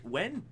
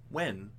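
First: "When?" jumps up high and rises at the end; incredulous question. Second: "When?" said at normal pitch with a falling end; flat deadpan repeat. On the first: Mocking the film's claim to co-hosts, incredulous. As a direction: ask "When?" in disbelief, pitched high. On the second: Repeating the question to co-hosts, deadpan. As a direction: drop "When?" flatly, unimpressed. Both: Retold or imitated. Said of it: "And we're like".

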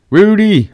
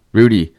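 First: High, drawn-out name call. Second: Said in the usual way. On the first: Acted. Fan hailing usher at Candlestick, high calling voice. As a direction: sing out the name as if hailing him.

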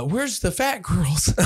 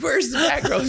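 First: Slow, slightly higher, wasted asking; mild retold drunken question; drawn-out clueless question. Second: Hammed-up shouted question; high mock shout. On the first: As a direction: ask it slowly, like a clueless drunk. Drunken question to the man at the door. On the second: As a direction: holler it way up high, imitating a drunken demand. Repeats his question, now loudly.

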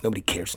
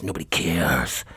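First: Said in the usual way. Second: Low, slow, drawn-out lament; mock self-pity. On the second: Host complains that listeners don't care, mock self-pity. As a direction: sink the pitch and stretch the last word.

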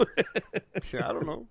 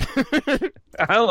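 First: Slow high mock. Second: Slow high echo. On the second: Acted. Echoing the slow high take.

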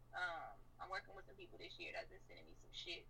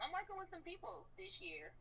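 First: Said in the usual way. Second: Slow, higher first try at the line; drawn-out first take. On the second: Shown as a demonstration. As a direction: rapper telling the interviewer about new collaborators, slow and pitched up. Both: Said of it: "repeats the line differently".

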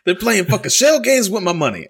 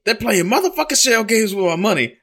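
First: Higher, louder shell-game rant; imitating dad angry. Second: Much higher, louder furious dad; imitating dad angry. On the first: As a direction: belt it up high like the outraged dad. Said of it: "that is one hundred percent the words". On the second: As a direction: shout it up high like the outraged dad. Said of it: "And he's like".

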